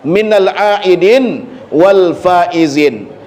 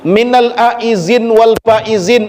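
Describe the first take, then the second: First: The second word has d and no final vowel. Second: The second word is said with a z sound. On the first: "kalau mau kita sukunkan akhirnya" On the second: "cara menyebutnya pun terkadang ada yang belepotan juga"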